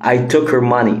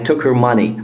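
First: Said quickly with the h in 'her' dropped. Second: Said quickly with the h in 'her' dropped.

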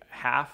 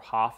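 First: The name rhymes with 'laugh'. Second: The name rhymes with 'cough'. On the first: The speaker calls it wrong. "even though it looks like half" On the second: The speaker calls it right. "Hoff is how he actually pronounces it"

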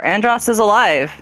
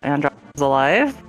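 First: The voice falls at the end like a statement. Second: The voice rises at the end like a question. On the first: It is stated as a fact. The speaker calls it right. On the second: It is asked as a question. The speaker calls it wrong.

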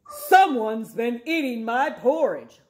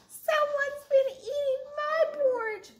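First: It is said in a loud, deep roar. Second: It is said in a tiny, squeaky voice.

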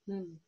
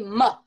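First: The consonant is clipped with no vowel after it. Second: The consonant is followed by a short uh vowel. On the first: The speaker calls it right. "It's m" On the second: The speaker calls it wrong. "Do not say ma"

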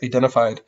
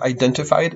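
First: The T after the N is left out. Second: The T after the N is clearly pronounced. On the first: "it's identified" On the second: "Instead of identified"

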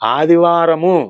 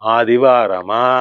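First: The word ends with a short 'u' vowel. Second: The word ends with a long 'a' vowel. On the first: "ఆదివారము అనగానే" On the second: "ఆదివారమా ఇలా పలుకుతుండేవాడిని"

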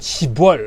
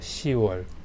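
First: The word is said with a b sound: shibwol. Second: The word is said without a b sound: siwol. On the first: The speaker calls it wrong. "10월 아니고요" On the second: The speaker calls it right.

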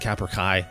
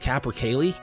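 First: The L sound near the end is silent. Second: The L sound near the end is pronounced. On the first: The speaker calls it wrong. "I was saying capercai. I thought the L's were silent" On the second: The speaker calls it right. "I think it's capercaillie"

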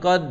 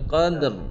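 First: The word ends with no r sound. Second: The word ends with a light r sound. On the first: The speaker calls it wrong. "tu tak ro langsung" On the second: The speaker calls it right. "ha dia bunyi ro sikit"

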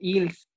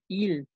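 First: The final s sound is pronounced. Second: The final s sound is silent. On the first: The speaker calls it wrong. "También dijiste, Manuel, ils. Cuidado" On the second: The speaker calls it right. "Esas S's no suenan a menos que la siguiente palabra empiece con vocal"

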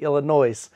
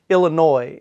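First: The final S is sounded. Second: The final S is silent. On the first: The speaker calls it right. "it's actually Illinois. So I'm gonna add the S from now on" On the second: The speaker calls it wrong. "I've been pronouncing it Illinois"

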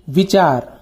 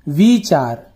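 First: The first vowel is short and quick. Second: The first vowel is long and drawn out. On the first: The speaker calls it right. "व में छोटी की मात्रा वी विचार" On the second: The speaker calls it wrong. "व में बड़ी की मात्रा वी विचार"

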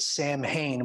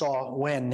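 First: The word is said with an English-style pronunciation. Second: The word is said with a Gaelic pronunciation. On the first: This is how English speakers commonly say it. The speaker calls it wrong. "we'd pronounce it" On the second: This is how the name is said in its original language. The speaker calls it right. "it's actually pronounced Samhain in Gaelic"

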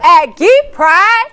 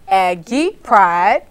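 First: It is said loudly with energy. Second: It is said softly and cutely.

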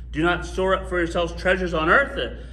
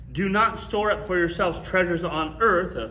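The two takes are said the same way.

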